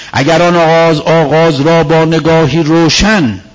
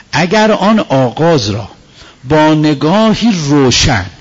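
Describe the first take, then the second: No difference in how they are said.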